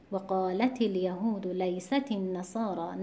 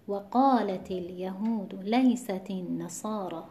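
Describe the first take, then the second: First: The verse recited with the stress moved onto الیهود; wrong recitation. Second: Slow, measured recitation of the verse; Quran recitation. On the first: Teacher showing students the wrong way to recite the verse. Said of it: "نه، نباید این کار انجام بدیم". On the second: Teacher reciting the Baqarah verse for students in recitation style. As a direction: recite it slowly and evenly. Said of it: "در سورهٔ مبارکهٔ بقره". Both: Shown as a demonstration.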